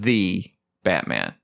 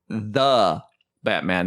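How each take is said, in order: First: The word 'the' has a long 'ee' vowel. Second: The word 'the' has a short 'uh' vowel. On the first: The speaker calls it wrong. "T H E E is the. And we are not Shakespearean" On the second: The speaker calls it right. "T H E is the"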